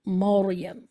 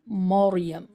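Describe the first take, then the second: No difference in how they are said.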